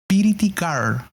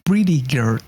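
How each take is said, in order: First: Pretty is said with an extra vowel, piriti. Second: Pretty is said with a plain pr cluster. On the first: "es como piriti girl" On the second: "No es como pretty girl"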